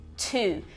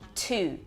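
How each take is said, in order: First: The word starts with an aspirated t sound. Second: The same.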